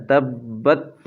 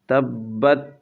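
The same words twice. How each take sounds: The two takes are said the same way.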